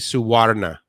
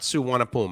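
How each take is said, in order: First: The name is said with an R sound. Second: The name is said without an R sound. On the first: "I put an R in there actually" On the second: "not Suwanapum"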